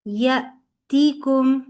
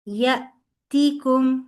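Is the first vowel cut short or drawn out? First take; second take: cut short; cut short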